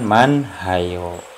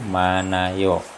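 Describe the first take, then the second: First: An h sound is heard in the middle. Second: No h sound is heard in the middle. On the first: The speaker calls it wrong. "bukan Manhayo" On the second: The speaker calls it right. "hiat ini tidak berbunyi"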